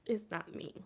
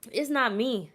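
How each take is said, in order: First: Softer, lower, to herself; mumbled repeat of the joke; quiet trailing denial. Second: Big tipsy protest. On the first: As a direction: let it fade out. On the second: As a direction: stretch out the denial. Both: Real, not acted. Repeated denial, fading takes.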